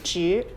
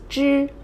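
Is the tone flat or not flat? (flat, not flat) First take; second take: not flat; flat. First: The tone is not level. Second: The tone is level and flat. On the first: It means only. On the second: It is a measure word for small animals.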